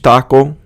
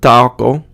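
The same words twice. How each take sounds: First: The vowels are short and crisp. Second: The vowels are longer and drawn out. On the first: The speaker calls it right. "just making that little change" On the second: The speaker calls it wrong. "it's not taco"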